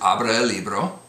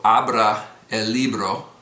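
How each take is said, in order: First: The phrase is spoken at normal speed, vowels sliding together. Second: The phrase is spoken very slowly, words kept apart. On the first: "pronounce it at a more normal speed" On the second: "I've been pronouncing the Spanish very, very slowly"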